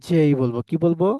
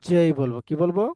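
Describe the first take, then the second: No difference in how they are said.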